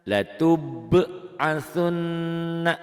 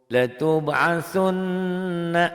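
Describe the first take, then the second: Both takes have the same delivery.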